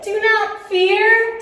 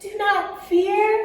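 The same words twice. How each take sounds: First: It is said at normal loudness. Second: It is said very quietly.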